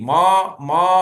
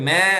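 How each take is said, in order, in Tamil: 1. உயிரெழுத்து நீண்ட, திறந்த ah. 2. உயிரெழுத்து eh போல ஒலிக்கிறது, ஆடு கத்துவது போல. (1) "அப்படி சொல்லக்கூடாது" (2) "மே மேன்னு சொல்லக்கூடாது இந்த ஆடு கத்துற மே சவுண்டும் கிடையாது"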